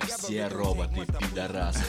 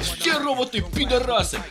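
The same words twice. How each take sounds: First: It is said in a calm, serious, formal tone. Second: It is said in an aggressive, forceful tone. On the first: The speaker is making a responsible official statement. "я вам ответственно заявляю" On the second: The speaker is trying to force belief through anger. "И тогда я им говорю агрессивно"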